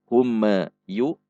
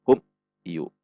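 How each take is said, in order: First: The m bounces off with an extra echo. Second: The m is cut off with a jolt.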